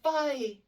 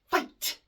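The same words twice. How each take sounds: First: The word is said loosely, without crisp consonants. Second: Every consonant is sharply and clearly pronounced. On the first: The speaker calls it wrong. "It's never just" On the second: The speaker calls it right. "I have to hear the completion of the word"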